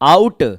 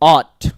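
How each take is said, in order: First: The vowel sounds like 'ow' in 'out'. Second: The vowel sounds like 'aw' in 'law'. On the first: The speaker calls it wrong. "ये पढ़ना गलत माना जाता है" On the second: The speaker calls it right. "आपको इसे पढ़ना है ऑट"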